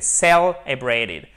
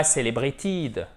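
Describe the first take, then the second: First: Celebrated slow with a full ay diphthong, celebraytid; celebrated, ay in the middle syllable; right pronunciation. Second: Celebrated with an ee vowel, celebritid; celebrated mispronounced with a short ee sound; wrong pronunciation. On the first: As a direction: say celebrated correctly and slowly. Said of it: "c'est celebrated". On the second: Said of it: "Et pas celebrated". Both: Shown as a demonstration.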